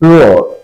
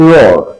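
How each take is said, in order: Both takes have the same delivery.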